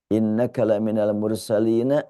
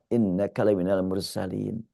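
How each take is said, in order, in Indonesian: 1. Frasa ini berakhir dengan vokal a. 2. Frasa ini berakhir pada konsonan n.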